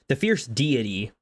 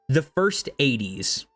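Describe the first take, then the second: First: It sounds like 'fierce deity'. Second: It sounds like 'first eighties'. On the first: The speaker calls it right. "I'm pretty sure it's deity" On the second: The speaker calls it wrong. "the way that they pronounce it is the first eighties"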